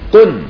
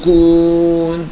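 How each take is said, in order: First: The vowel is clipped short. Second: The vowel is drawn out long. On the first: The speaker calls it right. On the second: The speaker calls it wrong. "ما عم تقول كون"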